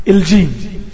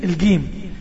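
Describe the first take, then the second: First: الجيم with a dj sound, said eldjim; classical jim. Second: الجيم with a hard g, said elgim; Egyptian jim. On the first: Teacher shows student the correct dj in الجيم. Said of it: "احنا عاوزين الجيم". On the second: Teacher shows student the wrong Egyptian g in الجيم. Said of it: "مش عاوزين الجيم بتاعت الجيم المصرية". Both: Shown as a demonstration.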